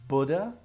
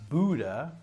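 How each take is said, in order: First: It is said in a British accent. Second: It is said in an American accent. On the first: "is the British" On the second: "is the American"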